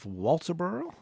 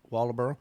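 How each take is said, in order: First: The name is said carefully, with a crisp T. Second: The name is said loosely, the T barely heard. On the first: The speaker is trying to sound sophisticated. The speaker calls it wrong. "I was trying to make it sophisticated for you" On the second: This is how locals actually say it. The speaker calls it right. "there is a T in there somewhere"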